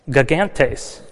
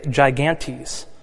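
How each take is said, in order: First: The word has a Greek-style pronunciation. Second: The word has an English-style pronunciation. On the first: "they translated it as gigantes" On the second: "or as we would say"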